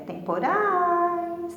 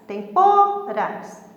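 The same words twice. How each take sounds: First: The stress is on the last syllable. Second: The stress is on the middle syllable. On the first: The speaker calls it right. "É temporais" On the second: The speaker calls it wrong. "para o pô sair mais forte"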